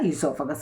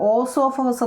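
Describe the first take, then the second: First: The word begins with an 'ee' sound. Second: The word begins with an 'oh' sound. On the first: The speaker calls it right. "പക്ഷെ നമ്മൾ ഉച്ചരിക്കുന്നത് ഈസോഫഗസ്" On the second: The speaker calls it wrong. "ഓസോഫഗസ് നമ്മൾ പറയത്തില്ല കേട്ടോ"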